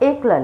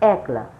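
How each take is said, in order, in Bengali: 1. প্রথম স্বরধ্বনিটি একটি বদ্ধ e ধ্বনি। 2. প্রথম স্বরধ্বনিটি একটি বিবৃত ae ধ্বনি।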